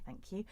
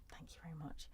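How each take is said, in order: First: Said in the usual way. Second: A soft, breathy whisper of thanks. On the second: Real, not acted. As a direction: whisper your thanks, barely voiced.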